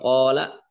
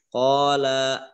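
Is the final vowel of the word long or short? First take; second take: short; long. First: The final vowel is cut short. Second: The final vowel is drawn out long. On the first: One person is speaking. The speaker calls it right. "dia berbicara atau satu orang berbicara" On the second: Two people are speaking. The speaker calls it wrong. "Kalau terlepas agak panjang nanti maknanya artinya yang berbicara itu dua orang"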